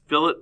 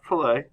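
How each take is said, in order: First: The word ends with an 'it' sound. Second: The word ends with an 'ay' sound. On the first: The speaker calls it right. "It's fillet" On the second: The speaker calls it wrong. "not fillet"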